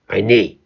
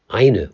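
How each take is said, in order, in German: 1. Die Betonung liegt auf der zweiten Silbe. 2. Die Betonung liegt auf der ersten Silbe. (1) "und nicht eine" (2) "jeder vernünftige Mensch sagt eine"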